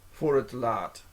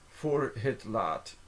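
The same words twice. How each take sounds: First: Said in the usual way. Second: Slowed down, each word separated; slow careful repeat. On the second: Shown as a demonstration. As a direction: say it slowly for a learner. Phrase repeated slowly, word by word.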